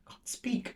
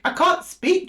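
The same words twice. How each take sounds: First: Barely voiced whisper, words failing; breath only, as if her voice has gone; real whisper. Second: Sudden high, louder exclamation; startled outburst. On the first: Reader to Gemini, losing her words, whispered. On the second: Reader to Gemini, shocked she cannot speak, high exclamation. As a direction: burst out in disbelief at losing words. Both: Real, not acted.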